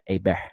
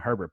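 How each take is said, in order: First: The name is said like French A-bear. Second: The name is said like English Herbert. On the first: "it has that French accent on it" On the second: "spelled his name the same"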